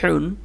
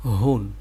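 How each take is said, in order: First: হুন with a pressed, tight h, higher; squeezed-throat h. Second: হুন with a loose, open h, pitched lower; open-throat h. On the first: Teacher repeating for students, squeezed h in হুন. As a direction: force the air through a tight throat on হুন. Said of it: "এটা গলা চেপে বের হবে". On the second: Teacher repeating the contrast, open h in lower হুন. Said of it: "এটা গলা ছেড়ে দিয়ে". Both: Shown as a demonstration.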